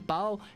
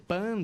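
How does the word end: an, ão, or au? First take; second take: au; an. First: It ends in an oral 'au' sound. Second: It ends in a plain 'an' sound. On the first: "Eles não conseguem falar esse ão" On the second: "Eles não conseguem falar esse ão"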